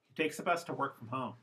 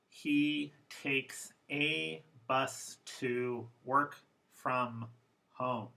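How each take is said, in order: First: Several weak vowels are reduced to schwa. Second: Every vowel is said fully, without reduction.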